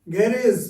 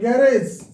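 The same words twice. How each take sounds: First: It is said with a British pronunciation. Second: It is said with an American pronunciation. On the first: "garage we say in British English" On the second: "we say garage in American English"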